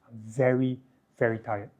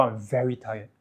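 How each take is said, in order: First: Emotional, lingering "very, very tired"; lengthened vowels. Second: Said in the usual way. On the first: Shown as a demonstration. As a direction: stretch each "very" wearily. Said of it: "you can lengthen the vowel sounds". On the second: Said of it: "lengthen the vowel sounds".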